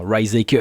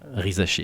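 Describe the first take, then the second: First: The name is pronounced the American way. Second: The name is pronounced the French way. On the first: The speaker has not looked up the name. The speaker calls it wrong. "ça peut être tentant pour un Américain s'ils ne se sont pas renseignés de faire un Rizaker" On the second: The speaker has looked up the name. The speaker calls it right. "Adam Silver a très bien fait"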